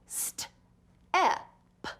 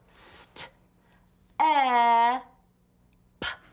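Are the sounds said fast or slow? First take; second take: fast; slow. First: The sounds are said faster with shorter gaps. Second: The sounds are said slowly with long gaps.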